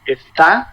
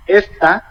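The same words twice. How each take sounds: First: Está with the stress on the final TÁ; stress on last syllable. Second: Esta with the stress on ES, voice falling from up to down; stress on first syllable. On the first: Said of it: "careful with the accent". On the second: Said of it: "from up to down". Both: Shown as a demonstration.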